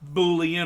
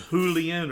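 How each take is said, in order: First: The word begins with a B sound. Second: The word begins with an H sound.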